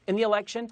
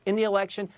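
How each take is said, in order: Both takes have the same delivery.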